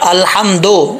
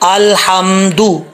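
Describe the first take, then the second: First: The final vowel is an 'o' sound. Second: The final vowel is an 'u' sound. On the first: The speaker calls it wrong. "दो नहीं पढ़ना" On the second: The speaker calls it right. "दाल पेश दू होता है"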